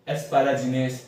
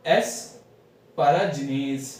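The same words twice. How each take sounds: First: Said in the usual way. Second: एस्पाराजिनेज drawn out very slowly; slow demo. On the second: Shown as a demonstration. Teacher sounding out the drug name. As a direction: stretch एस्पाराजिनेज syllable by syllable. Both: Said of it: "इसको ऐसे pronounce करते हैं".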